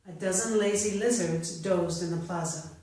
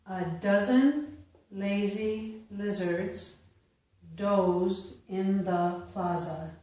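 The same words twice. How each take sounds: First: The sentence is read at natural speed. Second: The sentence is read slowly. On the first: "a second time at a more natural pace" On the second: "I will first read them slowly"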